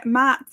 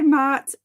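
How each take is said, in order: First: "Matt" with a short "a", as in cat; short front vowel in "Matt", questioning; second pronunciation attempt. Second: "Matt" with a long open "ah", like Mart; drawn-back vowel in "Matt", rhyming with heart; unsure name pronunciation. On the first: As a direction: say "Matt" to rhyme with hat, rising. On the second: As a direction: say "Matt" as "Maht". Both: Real, not acted. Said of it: "how to pronounce your name".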